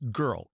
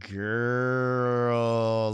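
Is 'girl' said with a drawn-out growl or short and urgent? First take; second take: urgent; growly. First: The word is short, sharp and urgent. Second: The word is drawn out with a growl. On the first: The speaker needs attention immediately. "it means like right now" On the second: The speaker is questioning something that seems off. "I need to like pull it out. ... It's a growl to it"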